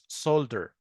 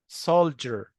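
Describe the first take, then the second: First: The middle consonant is a plain 'd' sound. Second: The middle consonant is a 'j' sound. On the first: The speaker calls it wrong. "مش سولدر" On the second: The speaker calls it right. "سولجر مش سولدر"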